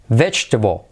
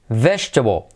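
No difference in how they are said.

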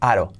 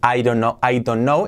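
First: The words are run together into one reduced chunk. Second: Each word is said separately and fully. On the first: The speaker calls it right. "es aro" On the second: The speaker calls it wrong. "En lugar de decir I don't know"

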